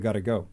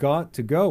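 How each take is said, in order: First: The words blend into a reduced 'gotta'. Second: Each word is said fully and separately. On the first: "we'll say, gotta go" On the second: "when we say"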